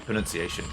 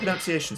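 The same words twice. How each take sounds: First: The word is said with its standard pronunciation. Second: The word is said with an altered pronunciation. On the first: The speaker calls it right. "It should be pronunciation" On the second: The speaker calls it wrong. "I mispronounced pronunciation"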